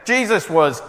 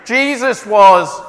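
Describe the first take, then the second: First: It is said at a quicker pace. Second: It is said at a slower pace.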